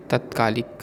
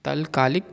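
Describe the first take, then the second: First: तत्कालिक with a doubled t; the proper तत्कालिक; correct form. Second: तलकालिक with an l sound; the mistaken तलकालिक; wrong form. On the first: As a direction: say तत्कालिक, त्क joined. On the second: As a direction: say तलकालिक, ल before का. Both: Shown as a demonstration. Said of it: "अशुद्ध और शुद्ध रूप".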